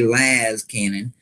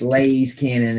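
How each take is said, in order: First: The first vowel is a short 'a' sound. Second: The first vowel sounds like 'ay' in laser. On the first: It is how many other people say it. "a bunch of other folks saying it the other way" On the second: It follows the way the word laser is said. "the fella that taught me Warhammer said it that way"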